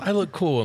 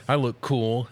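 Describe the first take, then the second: First: Much higher and louder, preening; hammed-up proud Ken. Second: A bit higher, pleased with himself; proud Ken. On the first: Ken boasting to the Barbies, high and hammy. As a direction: crow it like a delighted show-off. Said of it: "And then he goes". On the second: Retold or imitated. Ken showing off to the Barbies, mildly proud. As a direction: announce it like a proud boy. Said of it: "And he goes".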